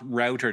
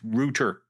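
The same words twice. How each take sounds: First: The vowel glides into a w-like sound. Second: The vowel has no w-like glide. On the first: The speaker calls it wrong. "It's not router. There's no W in there" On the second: The speaker calls it right. "It's router"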